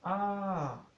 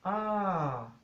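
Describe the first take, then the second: No difference in how they are said.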